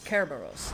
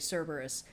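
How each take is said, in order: First: The name begins with a hard K sound. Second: The name begins with a soft S sound. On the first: This is the original ancient Greek pronunciation. "anything that's written with a C was pronounced with a K. So it's Kerberos in the original" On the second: This is the anglicized pronunciation. "a lot of these pronunciations have been anglicized. People will understand you if you say Cerberus"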